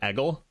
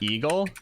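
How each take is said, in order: First: The first vowel is a short 'e' sound. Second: The first vowel is a long 'ee' sound. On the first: The speaker calls it right. "it's more like eggle" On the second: The speaker calls it wrong. "it's not eagle"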